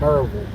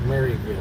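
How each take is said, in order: First: The first syllable is shortened to 'Mur'. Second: The first syllable sounds like the name Mary. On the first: This is how locals say the name. The speaker calls it right. "We pronounce it Murville" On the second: This is how outsiders say the name. The speaker calls it wrong. "we do not call it Maryville"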